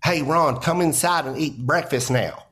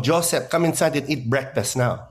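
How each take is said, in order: First: Put-on a light Southern American mom accent calling her son in to breakfast. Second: A lightly voiced Filipino accent of his mom calling him in to breakfast; an understated Filipino mom accent, calling her son Joseph. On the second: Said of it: "my mom going".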